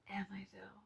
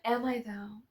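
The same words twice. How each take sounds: First: Breathy whispered repeat of the question. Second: Said in the usual way. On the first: Shown as a demonstration. Talking to her subscribers, she whispers the question again. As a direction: drop to a secret whisper.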